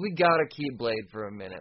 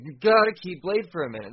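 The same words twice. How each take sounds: First: Said in the usual way. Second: GOTTA punched louder; insistent stress on "gotta"; emphatic repeat. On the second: Real, not acted. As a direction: lean hard on "gotta", raising the volume.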